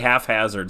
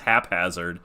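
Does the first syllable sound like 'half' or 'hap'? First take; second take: half; hap. First: The first syllable sounds like 'half'. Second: The first syllable sounds like 'hap'. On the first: The speaker calls it wrong. "You say haphazard sometimes. It's like you're combining half" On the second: The speaker calls it right. "it's haphazard. H A P haphazard"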